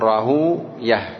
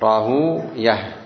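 Both takes have the same delivery.

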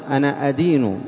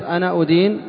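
First: The verb begins with an 'a' vowel. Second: The verb begins with a 'u' vowel. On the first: I worship and obey. The speaker calls it right. "فتح الهمزة في المضارع" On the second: I accuse. The speaker calls it wrong. "بضم الهمزة انقلب المعنى وفسد"

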